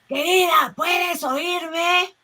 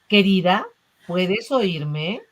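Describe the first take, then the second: First: It is shouted very loudly. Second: It is said a little louder.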